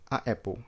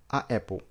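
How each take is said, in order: Both takes have the same delivery.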